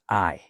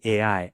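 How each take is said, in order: First: It is said as the single word I. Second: It is said as two separate letters. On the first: The speaker calls it wrong. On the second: The speaker calls it right.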